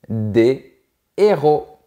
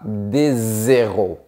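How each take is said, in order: First: The words are kept apart without linking. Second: A z sound links the two words. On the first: The speaker calls it right. "On dit" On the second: The speaker calls it wrong. "on ne dit pas"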